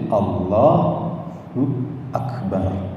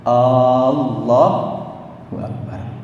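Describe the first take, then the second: First: The vowel after the l in Allah is long. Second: The opening A of Allah is drawn out long. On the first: God is the greatest. The speaker calls it right. "lamnya itu dipanjangkan. Allah ditasdid, Akbarnya pendek" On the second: It becomes a question of whether God is great. The speaker calls it wrong. "alifnya dipanjangkan"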